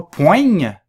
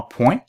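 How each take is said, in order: First: "poigne" with the gn sounded as in "ligne"; wrong pronunciation. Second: "point" said pwɛ̃, nasal vowel, G silent; correct pronunciation. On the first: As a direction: say "poigne" rhyming with "vigne", the wrong way. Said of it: "on ne prononce pas le G". ("poigne" avec le GN prononcé, à tort) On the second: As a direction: say "point" just like the word for a dot. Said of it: "c'est pas poigne, c'est vraiment point". ("point" prononcé pwɛ̃, le G muet) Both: Shown as a demonstration.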